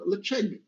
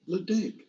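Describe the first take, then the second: First: The name is said with its Gaelic pronunciation. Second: The name is read as English spelling suggests. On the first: This is how the name is really pronounced. The speaker calls it right. "because this is a Gaelic name and it's called Ledaig" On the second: This is how most people guess the name. The speaker calls it wrong. "I think everybody said Ledaig. ... but that is not how it's it's pronounced"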